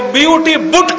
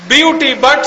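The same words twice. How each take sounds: First: "बुट" with the short oo of put; u in "बुट" sounded as oo, not uh; mock-logical pronunciation. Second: Said in the usual way. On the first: Shown as a demonstration. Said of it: "तो बीयूटी बुट क्यों नहीं". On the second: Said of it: "तो पीयूटी पट होना चाहिए".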